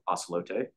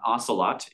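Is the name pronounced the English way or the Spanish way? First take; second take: Spanish; English. First: It is said the Spanish way, with a final vowel. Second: It is said as the English word, two-syllable ending. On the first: The speaker calls it right. "it's the Spanish pronunciation of the word" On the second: The speaker calls it wrong. "It's not Ocelot"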